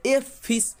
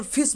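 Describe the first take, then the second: First: "एफ फिश" with the letter name एफ said in full before फिश; wrong reading. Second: "फिश" begun straight on the sound फ; correct reading. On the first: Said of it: "नहीं ना बोला जा रहा है". ("एफ फिश" में अक्षर का नाम बोलकर गलत उच्चारण) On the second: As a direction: say "फिश" as one word, no letter name एफ. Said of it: "केवल फिश बोला जा रहा है". ("फिश" सीधे फ ध्वनि से सही उच्चारण) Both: Shown as a demonstration.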